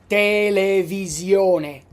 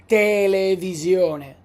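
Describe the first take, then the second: Both takes have the same delivery.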